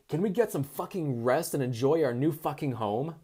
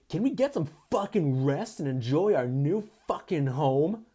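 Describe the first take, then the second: First: It is read in the reader's normal voice. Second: It is read in a put-on frat-boy voice.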